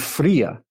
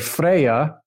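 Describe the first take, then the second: First: The first vowel sounds like 'ee' in free. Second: The first vowel sounds like 'ay' in prey. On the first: This follows the Greek reading of the letter. "But in the Greek with that Eta, it's like it's E. So it'd be free" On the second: This is the usual English way of saying it. "So we as English speakers see it as E-Y-A. So we say Freya, because we're looking at words like prey"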